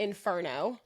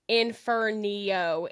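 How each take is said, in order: First: No extra sound comes before the final vowel. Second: An extra 'ee' sound comes before the final vowel. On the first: The speaker calls it right. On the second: The speaker calls it wrong. "is not right"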